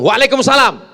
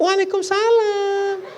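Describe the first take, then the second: First: It is said in a plain, ordinary voice. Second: It is said in a soft, drawn-out, sighing voice. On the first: The speaker calls it right. "jawab biasa aja" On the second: The speaker calls it wrong. "Jangan jawab"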